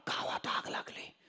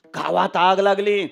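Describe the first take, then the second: First: Voiceless gasped whisper, as if winded; running servant. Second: Voiced alarm, called out after the gasp; running servant. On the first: Acted. Servant runs to the old man with news of fire, breathless whisper. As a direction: gasp out the alarm under your breath. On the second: Servant runs to the old man with news of fire, calling it out. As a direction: call the bad news out to the master. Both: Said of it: "पळतच आला".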